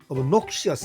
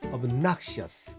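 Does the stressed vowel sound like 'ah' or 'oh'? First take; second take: oh; ah. First: The stressed o sounds like 'oh'. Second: The stressed o sounds like 'ah'. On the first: The speaker calls it wrong. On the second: The speaker calls it right.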